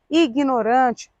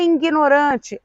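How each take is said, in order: First: The word begins with a plain 'i' sound. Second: The word begins with a nasal 'in' sound. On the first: "é ignorante" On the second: "Não é ignorante"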